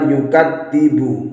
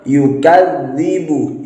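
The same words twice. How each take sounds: First: The middle consonant is a plain d sound. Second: The middle consonant is a voiced th sound. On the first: The speaker calls it wrong. "bukan yukadzibu" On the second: The speaker calls it right. "Harusnya yukadzibu"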